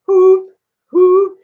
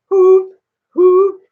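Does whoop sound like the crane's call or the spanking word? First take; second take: crane call; crane call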